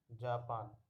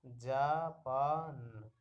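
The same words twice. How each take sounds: First: Said in the usual way. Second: Japan drawn out very slowly, each sound held; slow blended reading. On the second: Shown as a demonstration. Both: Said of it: "तो हो गया".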